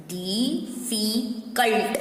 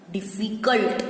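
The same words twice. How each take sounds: First: Slow "डिफिकल्ट", split as di, fi, kult; syllable by syllable. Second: Said in the usual way. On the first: Shown as a demonstration. Teacher breaking down a spelled word, "डिफिकल्ट" slowly in syllables. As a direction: stretch "डिफिकल्ट" into three separate syllables.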